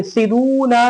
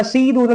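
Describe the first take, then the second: First: "सिदूना" with quick "सि", long "दू"; short first vowel. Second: "सीदूना" with "सी" wrongly long; wrongly lengthened vowel. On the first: Teacher giving the corrected reading, short first vowel. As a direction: hurry "सि", stretch "दू". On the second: Teacher showing how not to read it, wrongly lengthened vowel. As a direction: stretch the first syllable of "सीदूना". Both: Shown as a demonstration. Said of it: "सीदूना नहीं".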